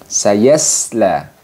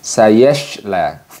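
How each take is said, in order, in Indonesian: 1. Konsonan di tengah adalah s biasa yang ringan. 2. Konsonan di tengah adalah sh yang mendesis. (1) "kurang tepat kalau kita membaca dengan sayasla ini dengan sayasla" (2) "kurang tepat jika kita membacanya dengan sayashla"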